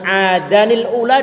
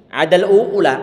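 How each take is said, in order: First: An 'ni' sound is inserted before 'ula'. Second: The tanwin n is dropped, joined straight to 'ula'. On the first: The speaker calls it right. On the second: The speaker calls it wrong.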